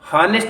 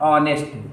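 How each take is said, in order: First: The word begins with an audible h sound. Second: The word begins directly with a vowel sound. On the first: The speaker calls it wrong. "हॉनेस्ट इसको हम लोग नहीं पढ़ते हैं" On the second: The speaker calls it right. "इसका जो pronunciation है वो ऑनेस्ट पढ़ा जाता है"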